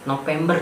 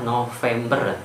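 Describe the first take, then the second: First: The middle consonant is a 'p' sound. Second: The middle consonant is a 'v' sound. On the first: The speaker calls it wrong. "itu tidak baku" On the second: The speaker calls it right. "bakunya adalah November dengan V"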